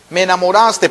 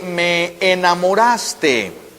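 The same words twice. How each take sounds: First: Said in the usual way. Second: Slow. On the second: Shown as a demonstration. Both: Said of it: "puede tener el significado de".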